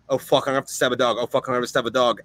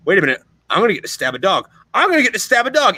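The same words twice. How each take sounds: First: Retold dread. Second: Quick glee rising high on the repeat; dawning delight, building to an excited, high-pitched burst; retold giddy realisation. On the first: Marine realising he must knife a charging dog, dreading it. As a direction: rush it out in reluctant, resigned repetition. Retelling his dread at the attack. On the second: Marine realising he gets to stab a dog, excited. Retelling dread turning into glee.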